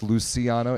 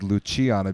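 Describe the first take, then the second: First: The name is pronounced the Spanish way. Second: The name is pronounced a non-Spanish way. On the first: This is the technically correct form. "technically it's Luciano in Spanish" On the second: This is the form the player prefers. "he prefers Luciano because it sounds cool"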